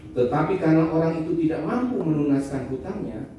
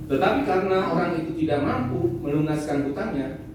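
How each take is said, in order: No difference in how they are said.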